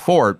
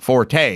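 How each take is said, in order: First: The word ends with a consonant sound. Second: The word ends with a vowel sound. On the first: This is the technically correct form. The speaker calls it right. "it's Fort" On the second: This is how everyone says it. The speaker calls it wrong. "you may be technically correct in that it isn't Forte"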